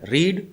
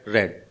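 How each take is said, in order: First: The vowel is long, like 'reed'. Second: The vowel is short, like 'red'. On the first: It is the present form of the verb. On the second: It is the past participle form of the verb.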